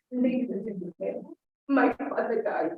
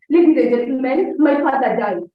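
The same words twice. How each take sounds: First: Soft, subdued "my father died," slowing down; grave, quiet announcement, falling on "my father died"; falling intonation. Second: Loud, upbeat announcement of "my father died"; wrongly rousing delivery of "Ladies and gentlemen"; rising intonation. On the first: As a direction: let "Ladies and gentlemen" sink softly, as sad news. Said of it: "with a falling intonation". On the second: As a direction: proclaim "my father died" loudly, pitch lifted on "gentlemen". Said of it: "saying it with a rising intonation". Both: Shown as a demonstration.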